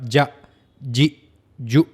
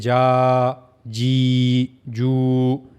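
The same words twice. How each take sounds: First: Each syllable is cut off with a jerk. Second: Each syllable is stretched out long. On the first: "ना ही इनको हम झटके के साथ ... ऐसे भी नहीं पढ़ सकते" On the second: "इनको हम लंबा नहीं कर सकते, ... ऐसे नहीं पढ़ सकते, ये गलत है"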